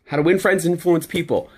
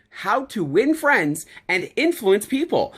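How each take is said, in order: First: Said in the usual way. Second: Slow, deliberate delivery of each word; emphatic repeat. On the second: Shown as a demonstration. Speaker repeating a book title so it sinks in, slow and emphatic. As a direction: stretch out "How to Win Friends and Influence People" for emphasis. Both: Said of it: "Say it again".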